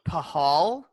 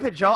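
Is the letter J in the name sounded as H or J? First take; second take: H; J. First: The J is sounded as an H. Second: The J is sounded as a J.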